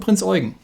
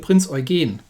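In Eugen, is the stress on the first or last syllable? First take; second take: first; last. First: Eugen is stressed on its first syllable. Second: Eugen is stressed on its last syllable. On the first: The speaker calls it wrong. "This is not the Prinz Eugen, because that would be how you would usually pronounce it" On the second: The speaker calls it right. "The stress is, is, is in the rear here"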